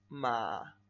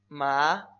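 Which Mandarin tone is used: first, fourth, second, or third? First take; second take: third; second. First: It is said in the third tone, loudly. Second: It is said in the second, rising tone. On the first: "El tercer tono... Más fuerte" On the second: "El segundo tono es ascendente"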